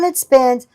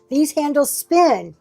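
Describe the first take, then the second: First: It is said flatly, without excitement. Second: It is said with lively excitement.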